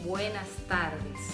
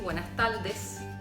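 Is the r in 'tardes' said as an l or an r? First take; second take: r; l. First: The r in tardes is a trilled r. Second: The r in tardes sounds like an l. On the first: The speaker calls it right. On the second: The speaker calls it wrong.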